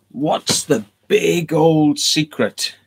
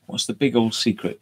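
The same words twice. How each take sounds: First: Slow, high, eerie voice on each word; spooky drawn-out question. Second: Said in the usual way. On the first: Acted. Spooking the viewers with the Freemason question, slow and eerie. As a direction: stretch it out like a campfire ghost tale.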